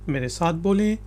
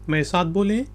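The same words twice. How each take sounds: Both takes have the same delivery.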